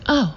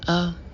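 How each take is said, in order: First: It is said in an excited way. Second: It is said in a disappointed way.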